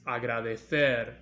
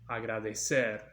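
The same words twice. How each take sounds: First: The c is pronounced like English th. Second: The c is pronounced like English s. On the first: This is how it is said in Spain. "This is agradecer in Spain" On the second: This is how it is said in Latin America. "here in Latin America we pronounce it agradecer"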